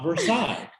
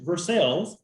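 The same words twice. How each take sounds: First: It is said the standard, navigation-app way. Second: It is said the local Kentucky way. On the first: This is how outsiders and GPS apps say it. The speaker calls it wrong. "not Versailles. even though that's how Waze will pronounce it" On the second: This is how people in the area say it. The speaker calls it right. "grew up in Versailles"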